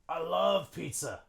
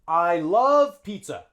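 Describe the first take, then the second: First: The first word is a very short 'uh' sound. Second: The first word is a full, long 'eye' sound. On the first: "They just say schwa instead of I" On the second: "this is good English"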